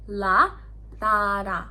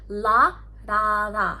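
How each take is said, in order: Both takes have the same delivery.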